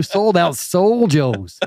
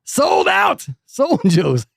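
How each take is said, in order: First: SOUL JOE'S drawn out slowly, pitched up; playful hype. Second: High, slow, stretched-out announcer yell; shouted SOLD OUT, drawn out for show; mock hype shout. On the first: Pretend. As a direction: brag with SOUL JOE'S stretched out. Hyping his show, first take. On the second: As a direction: holler the brag like a hype man. Repeats the brag, shouted.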